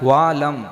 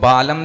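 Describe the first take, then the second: First: The word starts with a v sound. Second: The word starts with a b sound. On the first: The speaker calls it right. "वह वाला वह बोलना" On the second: The speaker calls it wrong. "बालम नहीं बोलना, बकरा वाला व नहीं"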